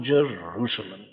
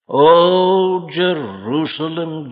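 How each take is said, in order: First: Jerusalem, dying away much softer and lower; Jerusalem, let the second call fade in grief; lament. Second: Jerusalem, rising cry then slowing and falling; mourning call of Jerusalem, drawn out; lament. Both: Acted. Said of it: "Can you hear this note of lament?".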